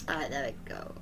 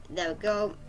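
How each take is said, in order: First: Soft unvoiced whisper. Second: Said in the usual way. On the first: Real, not acted. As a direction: breathe it out in a whisper. Whispered repeat of same words.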